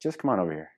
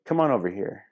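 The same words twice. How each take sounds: First: Intimate, hushed invitation; softer insistence. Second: Inviting call. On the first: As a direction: drop the voice, softer and more intimate on "Just come on over here". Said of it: "It's like". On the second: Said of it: "give her one of those". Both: Shown as a demonstration.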